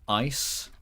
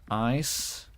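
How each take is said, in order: First: The vowel in ice has an American sound. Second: The vowel in ice has an American sound.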